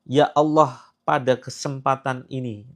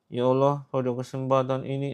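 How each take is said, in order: First: The vowels are clear with a wide-open mouth. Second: The vowels are mumbled with a nearly closed mouth. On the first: The prayer is said sincerely and firmly. The speaker calls it right. "ucapkan dengan vokal yang terbuka ya" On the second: The prayer is said half-heartedly. The speaker calls it wrong. "ini ini vokal yang nggak jelas tuh"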